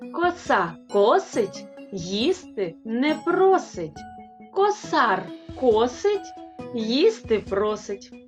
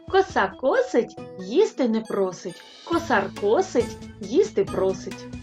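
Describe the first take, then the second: First: It is spoken at a moderate, unhurried pace. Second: It is spoken at a faster pace.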